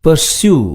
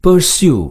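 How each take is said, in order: First: Pursue again, slightly higher, ending in "syoo" with no final e sound; teacher repeating Pursue so students catch the silent e; careful pronunciation repeated. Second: Pursue said slowly and higher, ending in a clear "syoo"; teacher modelling Pursue clearly for students; careful pronunciation. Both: Shown as a demonstration. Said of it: "இச்சொல்லின் உச்சரிப்பினை கவனியுங்கள்".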